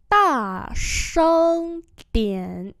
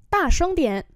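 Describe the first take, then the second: First: Each syllable drawn out slowly; slow teaching repeat. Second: Said in the usual way. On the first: Shown as a demonstration. Teacher slowly models the phrase for students, drawn out. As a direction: spell it out slowly for learners. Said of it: "slow repeat". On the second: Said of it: "normal model".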